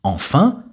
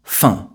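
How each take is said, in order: First: Both syllables of the word are pronounced. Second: The first syllable of the word is dropped. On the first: "je ne prononce pas « enfin »" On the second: "mais simplement « fin »"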